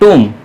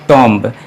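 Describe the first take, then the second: First: The word ends with no b sound. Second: The word ends with an audible b sound. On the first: The speaker calls it right. "सही pronunciation है ... ब sound इसमें नहीं आता है" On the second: The speaker calls it wrong. "ये एक गलत प्रोनाउंसिएशन है"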